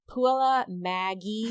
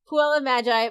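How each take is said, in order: First: The G in the second word is hard. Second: The G in the second word is soft. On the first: The speaker calls it wrong. "it says Maggie in katakana" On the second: The speaker calls it right. "that's how the G is pronounced in magic"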